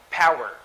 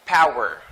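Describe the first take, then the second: No difference in how they are said.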